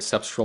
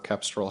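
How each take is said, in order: First: The word begins with an s sound. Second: The word begins with a k sound.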